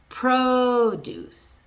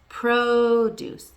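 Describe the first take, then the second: Both takes have the same delivery.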